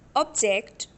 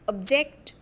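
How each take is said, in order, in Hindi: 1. ज़ोर पहले अक्षर पर है। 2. ज़ोर आखिरी अक्षर पर है।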